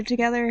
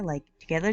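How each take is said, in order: First: Together? pushed higher and louder with a rising question; stress on together. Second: Said in the usual way. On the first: Shown as a demonstration. Heroine asking Alec if he and Lachlan are a couple, stressing together?. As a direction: lean on together? to show she means a couple.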